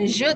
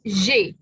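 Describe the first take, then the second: First: The vowel is a short neutral schwa. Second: The vowel is a clear 'e' sound. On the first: The speaker calls it wrong. "Bukan je" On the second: The speaker calls it right. "tapi j. ... a dan i dilafalkan e"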